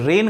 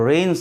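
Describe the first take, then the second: First: The word has a commonly heard nonstandard vowel. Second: The word has the standard English vowel. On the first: The speaker calls it wrong. "रेन गलत है" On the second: The speaker calls it right. "रेन सही है"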